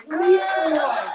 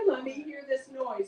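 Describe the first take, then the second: First: Loud call to hype the crowd; rousing call. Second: Said in the usual way. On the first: Real, not acted. Host urging the audience to cheer the headliner, loud rallying call. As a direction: belt it out to get them cheering. Repeats request louder to rouse crowd.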